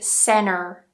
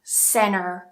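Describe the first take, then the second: First: The final R sound is pronounced. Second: The same.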